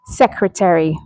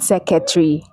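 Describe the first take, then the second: First: "secretary" as SEK-ruh-teh-ree; careful model "secretary", four clear syllables; correct pronunciation. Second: "secretary" as seh-keh-tree, dropping the first r; wrong pronunciation. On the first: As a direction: sound every syllable of "secretary", r after the k. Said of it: "it's secretary". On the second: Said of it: "not secretary". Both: Shown as a demonstration.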